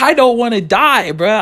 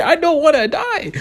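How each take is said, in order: First: Higher, slow begging whine; a pleading, drawn-out whine. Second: Very high, slow comic wail; a high, drawn-out mock wail. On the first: Retold or imitated. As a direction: beg them not to make you go. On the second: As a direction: wail it like a terrified kid. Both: Pleading with friends not to go.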